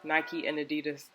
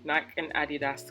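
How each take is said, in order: First: The brand names are said the American way. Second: The brand names are said the non-American way. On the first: This is how American viewers say it. "I would never say Nike and Adidas" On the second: This is how the speaker always says it. "I'm going to say Nike and Adidas till the day I die"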